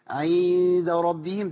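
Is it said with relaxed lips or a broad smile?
smile. It is said with an exaggerated broad smile. The speaker calls it wrong. "لو ابتسمت زياده هتبقى عامله ازاي. عند ربهم ده مش مطلوب"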